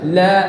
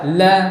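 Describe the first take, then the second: No difference in how they are said.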